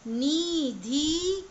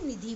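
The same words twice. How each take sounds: First: निधि with a breathy aspirated धी, the wrong way. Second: निधि with a plain unaspirated धि; correct plain. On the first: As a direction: push out a हवा-भरी धी in निधि. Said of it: "निधि नहीं बोल रहे हैं". (निधि में महाप्राण ध, गलत) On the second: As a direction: say निधि cleanly, no extra breath. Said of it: "निधि बोल रहे हैं". (निधि सही, अल्पप्राण ध के साथ) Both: Shown as a demonstration.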